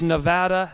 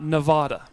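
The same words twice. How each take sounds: First: The stressed vowel sounds like the one in cat. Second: The stressed vowel sounds like the one in father. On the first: This is how locals say the state's name. The speaker calls it right. "And it is Nevada" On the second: This is how outsiders say the state's name. The speaker calls it wrong. "not Nevada"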